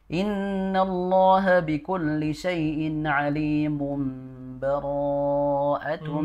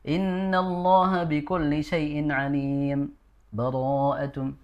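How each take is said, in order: First: The words run together with no pause. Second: A brief stop without breath before the last word.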